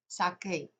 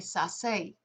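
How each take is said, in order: First: The middle consonant is a hard k sound. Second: The middle consonant is a soft s sound. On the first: The speaker calls it right. "The way to get that hard C sound before an E is Q U" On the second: The speaker calls it wrong. "C before E makes a soft C sound"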